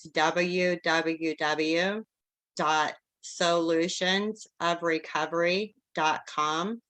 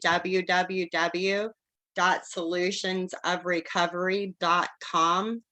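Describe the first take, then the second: First: The address is read at a slow pace. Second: The address is read at a fast pace.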